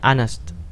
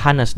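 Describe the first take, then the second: First: The word starts without an h sound. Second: The word starts with a clear h sound. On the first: The speaker calls it right. "dibacanya honest" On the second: The speaker calls it wrong. "Ini nggak pernah dibaca honest"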